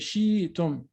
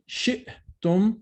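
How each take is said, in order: First: A y-like glide replaces the stop. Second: A glottal stop splits the word in the middle. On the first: The speaker calls it wrong. "you will transform it into a ya" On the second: The speaker calls it right. "Instead of saying shi'tum"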